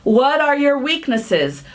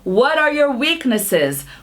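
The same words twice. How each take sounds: No difference in how they are said.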